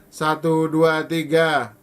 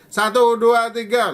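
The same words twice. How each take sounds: First: The counting is spoken loudly. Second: The counting is spoken even more loudly. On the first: "Lalu keras" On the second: "Lalu keras lagi"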